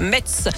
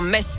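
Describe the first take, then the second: First: The name ends in a ts sound. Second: The name ends in a plain s sound. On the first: The speaker calls it wrong. "pas Metz" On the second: The speaker calls it right. "On m'a dit de dire Metz"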